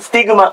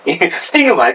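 First: The pitch stays level across the word. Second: The pitch drops within the word. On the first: The speaker calls it right. "これはまっすぐなイントネーションで" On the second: The speaker calls it wrong. "奇跡みたいなイントネーション、ちょっとごちゃになってるぜ"

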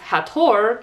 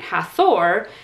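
First: The middle is a separate t and h. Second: The middle is a single th sound. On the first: The speaker calls it right. "it is pronounced Hathor, because ancient Egyptians don't have the th sound" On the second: The speaker calls it wrong. "instead of pronouncing it Hathor, as I had done my entire life"

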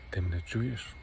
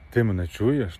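First: The question is said very quietly. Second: The question is said more loudly. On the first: The speaker is standing far away. "тихесенько так каже" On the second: The speaker has moved closer. "Так голосніше"

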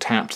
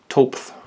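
First: The vowel is 'a' and ends in a hard d. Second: The vowel is 'o' and ends in a soft th. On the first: It is the intended brand name. "I think it's meant to be called Tapped" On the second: It follows the Nordic letters as written. "if we were to pronounce that truthfully as it's written there"

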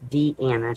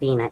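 First: The name is said as Deanna. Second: The name is said as Dina. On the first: The speaker calls it right. "it's Deanna" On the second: The speaker calls it wrong. "But it's not Dina"

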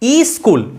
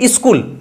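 First: An extra vowel is added before the word. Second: The word starts directly with the consonant cluster. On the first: A vowel has been added at the start of the word. "তার থেকে আসলো ই স্কুল" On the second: This is the original form of the word. "বাস্তবিক শব্দটা হচ্ছে স্কুল"

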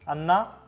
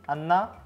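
No difference in how they are said.

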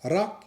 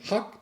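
First: The word begins with an r sound. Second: The word begins with an h sound. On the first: This is the standard form. "คำรักก็เปลี่ยน" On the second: This is the northeastern regional form. "รักจะเปลี่ยนถึงฮักถ้าเข้าภาคอีสาน"

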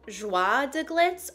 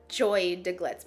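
First: The first word is said the French way. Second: The first word sounds like English 'joy'. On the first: The speaker calls it right. "I think it's Joie de Glitz" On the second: The speaker calls it wrong. "I can't see it being Joy"

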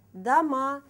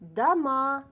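First: The stress is on the last syllable. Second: The stress is on the last syllable.

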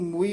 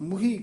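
First: It is said without an h sound. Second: It is said with an h sound. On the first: The speaker calls it wrong. "ਇਸ ਨੂੰ ਮੂਈ ਨਹੀਂ ਕਹਿਣਾ" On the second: The speaker calls it right. "ਹਾਹੇ ਨਾਲ ਉਚਾਰਨ ਕਰਨਾ"

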